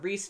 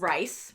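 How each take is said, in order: First: The name has an ee vowel. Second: The name has an eye vowel. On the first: "We were saying the Reese family" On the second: "I think Rice is the appropriate way"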